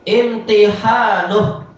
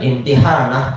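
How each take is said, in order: First: The vowel before the final h is u. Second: The vowel before the final h is a. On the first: The speaker calls it wrong. "dan ini harokatnya salah tentunya" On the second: The speaker calls it right. "Imtihanah, yang betul"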